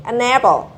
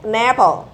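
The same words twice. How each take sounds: The two takes are said the same way.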